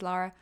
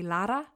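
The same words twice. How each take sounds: First: The R is plain and not rolled. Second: The R is rolled. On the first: The speaker calls it wrong. "in a really monotone English way" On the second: The speaker calls it right. "Lara with a rolled R"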